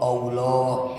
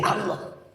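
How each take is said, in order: First: The word begins with a rounded 'o' vowel. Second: The word begins with an open 'a' vowel. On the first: The speaker calls it wrong. "Entong Allah" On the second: The speaker calls it right. "Jadi Allah"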